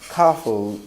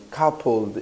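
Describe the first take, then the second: No difference in how they are said.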